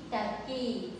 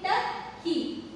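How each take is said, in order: First: Said in the usual way. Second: Slow "turkey", pausing between "tur" and "key"; split into syllables. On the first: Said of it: "read it, turkey". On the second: Shown as a demonstration. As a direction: break "turkey" into two drawn-out, higher syllables. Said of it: "So, split it here".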